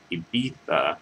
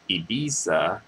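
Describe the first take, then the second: First: The z is said like a th. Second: The z is said like an s. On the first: "with like a um, T H sound with like a th" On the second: "instead of"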